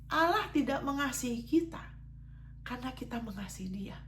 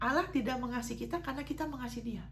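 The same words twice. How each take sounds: First: The sentence is spoken slowly and deliberately. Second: The sentence is spoken at a normal pace.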